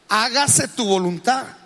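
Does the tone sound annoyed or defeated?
annoyed. It sounds annoyed and irritated.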